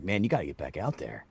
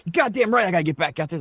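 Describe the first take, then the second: First: Low, soft retold urging; softly spoken teammate's nudge; low-key urging. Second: Higher, mildly fired-up retort; retold fighting-spirit comeback. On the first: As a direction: urge him back in quietly, low. Teammates urge him, low-key retelling. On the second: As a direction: imitate a manager getting pumped up. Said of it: "he's all fired up".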